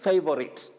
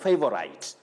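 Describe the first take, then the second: First: The last syllable sounds like 'sit'. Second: The last syllable sounds like 'site'. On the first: The speaker calls it right. "you say favorite" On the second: The speaker calls it wrong. "not favorite. If you say favorite, you are like somebody saying opposite because of S I T E, that is site"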